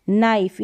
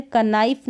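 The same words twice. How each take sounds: First: नाइफ said as "naif", with no k sound; नाइफ spoken cleanly as "naif"; silent k. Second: कनाइफ said as "kənaif", sounding the silent k; कनाइफ as a deliberate mistake, k sounded out; wrong k sound. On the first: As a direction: start straight on the n of नाइफ and leave the k silent. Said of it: "यहाँ पर के जो है silent है". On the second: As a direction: voice the k before the n in कनाइफ. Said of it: "कनाइफ नहीं पढ़ेंगे". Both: Shown as a demonstration.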